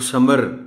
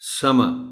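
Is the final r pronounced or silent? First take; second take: pronounced; silent. First: The final r is clearly pronounced. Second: The final r is almost silent. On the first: The speaker calls it wrong. "आर को pronounce करेंगे" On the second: The speaker calls it right. "it is not to be pronounced clearly"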